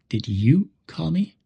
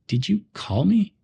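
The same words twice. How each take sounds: First: The word you carries the stress. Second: The word call carries the stress. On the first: Asks whether this person was the one who called. "If we stress you" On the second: Asks whether the call happened at all. "If we stress call"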